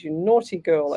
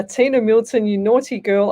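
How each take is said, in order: First: Teasing tut-tut, lower and settled; mock scolding. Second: Teasing tut-tut, a bit louder; mock scolding. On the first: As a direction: repeat the tease, calmer. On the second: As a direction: playfully scold a cheeky viewer. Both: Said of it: "I am not saying what you just wrote".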